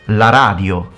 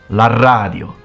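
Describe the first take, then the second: The two takes are said the same way.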